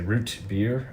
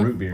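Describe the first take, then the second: First: The T is stressed, then a pause before beer. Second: Root beer is said smoothly, without a pause. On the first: "like this emphasis on the T and root and a slight pause and then beer" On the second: "You don't say root beer"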